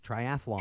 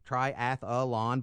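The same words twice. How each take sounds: First: The word is said with three syllables. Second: The word is said with four syllables. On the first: The speaker calls it right. "but it's actually three" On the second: The speaker calls it wrong. "everyone pronounces four syllables"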